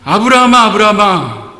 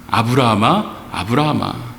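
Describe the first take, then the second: First: The name is called urgently, in a hurry. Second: The name is called calmly, without urgency.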